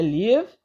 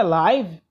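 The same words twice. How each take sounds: First: "live" with a short i, as the teacher corrects it; correct English reading. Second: "live" read the wrong way, as the rejected pronunciation; wrong English reading. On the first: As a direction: give "live" the corrected pronunciation. (pronúncia correta de "live", com i curto) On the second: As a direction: say "live" the way the teacher rules out. (pronúncia errada de "live") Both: Shown as a demonstration. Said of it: "isso aqui não é live, é live".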